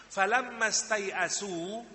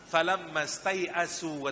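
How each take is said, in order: First: Slow, drawn-out recitation of "Falamma stai'asu" rising at the end; Quranic recitation. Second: Slow, drawn-out recitation of "Falamma stai'asu"; Quranic recitation. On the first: Preacher quotes the verse again, drawn out and rising. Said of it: "ketika mereka setelah berusaha". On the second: Preacher recites the verse to the congregation, drawn out. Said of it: "kata Al-Quran". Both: Shown as a demonstration.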